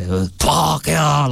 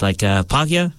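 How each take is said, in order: First: A slower, drawn-out Pākehā, lightly voiced as an old man; grandfather's way of saying it. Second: Said in the usual way. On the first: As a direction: hold the word Pākehā long like his grandfather does. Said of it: "that's how he says it". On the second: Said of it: "his favorite word is".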